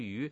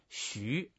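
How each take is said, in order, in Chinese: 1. 这个音节读 yu。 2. 这个音节读 xu。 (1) "给读错了，读成鱼" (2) "实际上他这个字本身念徐"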